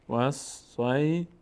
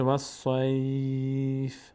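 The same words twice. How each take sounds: First: Slow "والصیف" broken up, ending on a separate "fi"; continuing form, voweled ending. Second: "والصیف" with long held "sai", ending on bare f; stopping form, silent ending. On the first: Teacher showing it before the stop rule, final kasra sounded. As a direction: sound out "والصیف" as was-sai-fi. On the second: Teacher showing a verse-end pause, long glide then bare f. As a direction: draw out "والصیف" and close on a vowelless f. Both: Shown as a demonstration. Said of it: "اگر اینجا توقف بکنیم".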